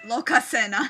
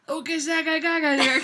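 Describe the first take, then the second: First: Lokasena said clearly as loh-ka-seh-na; correct pronunciation. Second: Lokasagagaga stumbled into babble syllables; tipsy mispronunciation. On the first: Shown as a demonstration. Friend correcting the drunk reader, clear. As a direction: say Lokasena cleanly with a small laugh. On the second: Real, not acted. Slurring the Norse name while tipsy, mangled. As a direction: trip over Lokasenna as Lokasagagaga. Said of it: "too alcohol to pronounce".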